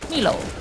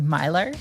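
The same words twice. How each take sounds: First: It is said with a Finnish pronunciation. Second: It is said with an Australian English pronunciation. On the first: It is how a Finnish person would say it. "a Finn would say Milo" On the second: It is the name of an Australian drink. "in Australia, we have this drink called Milo"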